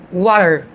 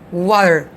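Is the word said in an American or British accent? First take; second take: American; American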